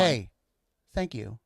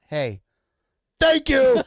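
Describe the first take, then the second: First: It is said gently, without extra force. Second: It is said loudly, with a lot of force. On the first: The speaker calls it right. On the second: The speaker calls it wrong.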